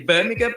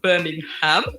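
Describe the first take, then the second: First: It is said the local way. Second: It is said a non-local way. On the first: The speaker calls it right. "we say Birmingham" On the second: The speaker calls it wrong. "not Birmingham"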